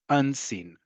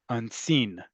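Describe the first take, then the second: First: The stress is on the first syllable. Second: The stress is on the second syllable. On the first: "I'm saying it like you would say in Hebrew, where the emphasis is on the first syllable" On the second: "Now say it with the emphasis on the second syllable"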